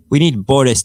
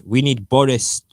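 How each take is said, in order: First: "We need Boris" declared loudly, falling on need; a louder mock-heroic "We need Boris"; dramatic headline. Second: Said in the usual way. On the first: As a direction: proclaim it like a tabloid front page. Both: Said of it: "declares the Daily Express".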